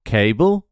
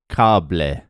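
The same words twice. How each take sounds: First: Said in the usual way. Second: "cable" as KA-ble, lower, open A and final E; Spanish stress. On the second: Shown as a demonstration. Comedian demoing Spanish version, KA-ble. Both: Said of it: "emphasize the second last syllable".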